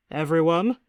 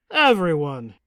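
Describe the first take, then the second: First: "Everyone" with a rising, questioning tune; calling for attention. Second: "everyone" louder, with a falling tune; "everyone" as a loud, insistent summons that falls; calling for attention. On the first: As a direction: call out "Everyone" and lift the ending. Host calls guests to attention. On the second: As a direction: call out "everyone" firmly, dropping the ending. Host repeats call, more insistent. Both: Acted.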